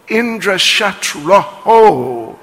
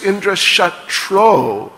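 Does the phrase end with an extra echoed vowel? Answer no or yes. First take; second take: yes; no. First: The phrase ends with an added breathy echoed vowel. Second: The phrase ends plainly with no echoed vowel. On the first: The speaker calls it wrong. "they mispronounced it as Indra Shatroho Visarga" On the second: The speaker calls it right. "Instead of just Indra Shatro"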